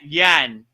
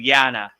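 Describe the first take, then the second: First: The word ends on the n, without a vowel. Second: The word ends with an a vowel after n. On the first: "they drop the a" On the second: "instead of yana"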